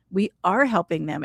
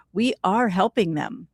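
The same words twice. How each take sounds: First: Said in the usual way. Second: Whispered. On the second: Real, not acted. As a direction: let it fall to a whisper. Whispers the point about prayer.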